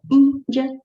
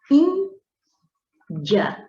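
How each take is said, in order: First: Said in the usual way. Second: Índia split in two, high stressed ÍN, pause; stressed penultimate syllable. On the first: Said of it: "quando você faz a leitura". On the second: Shown as a demonstration. Teacher showing which syllable is stronger, ÍN stressed in Índia. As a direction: hold the ÍN of Índia high, then drop in the rest. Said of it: "penúltima sílaba também mais forte".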